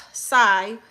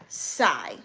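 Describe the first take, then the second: First: Said in the usual way. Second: Long sigh dropping low; withering sigh. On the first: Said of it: "What is the dramatics with the sigh?". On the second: Shown as a demonstration. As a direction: sigh it out, deeply unimpressed. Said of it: "Why are you sighing like that?".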